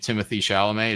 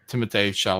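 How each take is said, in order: First: The first name is said the English way. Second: The first name is said the French way. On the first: The speaker calls it wrong. "You don't say Timothy Chalamet" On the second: The speaker calls it right. "It's actually Timothée. ... French"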